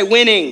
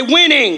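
First: Said in the usual way. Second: Emphatic. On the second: Shown as a demonstration. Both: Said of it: "Say it like you mean it".

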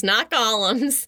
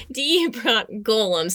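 First: "golems" said as GAH-lems, the wrong way; "not golems" with a short open A; wrong pronunciation. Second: "golems" said slowly, as GO-lems; slow careful "golems" with a long O; correct pronunciation. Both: Shown as a demonstration.

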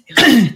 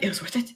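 First: Said out loud with satisfaction; louder triumphant repeat; louder proud declaration. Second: Murmured almost to himself; hushed, satisfied; a quiet, pleased aside; soft contented sigh. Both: Acted. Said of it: "Aslan's just like".

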